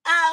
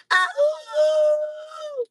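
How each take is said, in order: First: Louder, steadier call with no crack; clean shout. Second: High, loud cry that cracks; voice cracking. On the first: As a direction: shout it out clearly. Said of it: "let me get my throat together". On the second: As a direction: voice breaking on a shouted call. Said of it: "I'm losing my voice". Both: Real, not acted.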